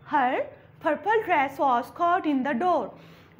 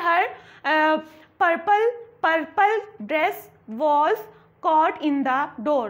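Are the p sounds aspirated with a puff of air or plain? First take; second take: aspirated; plain. First: The p sounds carry a strong puff of air. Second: The p sounds are plain, without a puff. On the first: The speaker calls it right. "जब पी के sound को फ मतलब के style से बोलोगे" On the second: The speaker calls it wrong. "अगर मैं सिंपली ऐसे ही कहूँ ... तो इसमें अफेक्ट नहीं आया ना, स्टाइल नहीं आया।"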